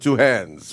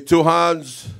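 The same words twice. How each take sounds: First: It is said with an American accent. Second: It is said with an African accent. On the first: "Which is it, American or" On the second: "if I'm in Africa, I say two hands"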